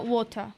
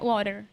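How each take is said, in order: First: It is said in a British accent. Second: It is said in an American accent. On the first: "o britânico é" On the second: "o americano é"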